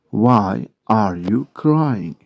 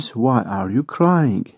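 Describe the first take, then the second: First: "Why are you crying" drawn out slowly; slow model repeat. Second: Said in the usual way. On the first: Shown as a demonstration. English teacher repeating a question for Turkish learners, slow model repeat. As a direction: separate each word for learners.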